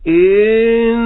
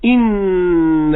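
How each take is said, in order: First: The first vowel is drawn out before the n. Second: The first vowel is kept short before the n. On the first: The speaker calls it wrong. "يمطط الكسرة إلى أن يدخل على النون" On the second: The speaker calls it right. "الكسرة لا يزيد زمنها"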